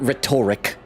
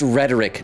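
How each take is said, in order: First: It sounds like the start of 'rhetorical'. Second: It does not sound like 'rhetorical' begins. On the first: The speaker calls it wrong. "not rhetoric" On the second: The speaker calls it right. "it's pronounced rhetoric"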